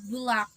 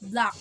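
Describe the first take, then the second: First: An extra sound is inserted into the word. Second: The word has no inserted extra sound. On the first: The speaker calls it wrong. "inserting extra sounds in words" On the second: The speaker calls it right. "instead of"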